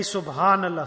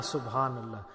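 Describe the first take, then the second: First: Said in the usual way. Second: Subhanallah much lower and softer, dying away; quiet trailing Subhanallah; soft fading echo. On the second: Shown as a demonstration. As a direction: let the repeat of Subhanallah fall to a hush.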